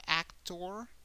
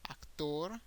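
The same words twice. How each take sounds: First: "actor" as AC-tor, rising at the end; English "actor", first syllable stressed; English pronunciation. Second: "actor" as ac-TOR, rising at the end; Spanish "actor", last syllable stressed; Spanish pronunciation. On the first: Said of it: "The emphasis is more in the first syllable". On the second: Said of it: "the emphasis is in the last syllable". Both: Shown as a demonstration.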